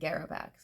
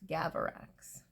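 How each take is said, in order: First: The name begins with the sounds 'Gara'. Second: The name begins with the sounds 'Gava'. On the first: The speaker calls it wrong. "I'm saying it wrong. Not Garavax" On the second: The speaker calls it right. "It's supposed to be Gavarax"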